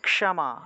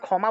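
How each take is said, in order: First: The opening cluster is k plus retroflex sh. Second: The opening cluster is said the everyday Bengali way. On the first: "সংস্কৃত উচ্চারণ ... ক যুগ মূর্ধন্যস্ব সাথে ম আকার" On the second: "বাংলায় তো আমরা ক্ষমা বলে থাকি"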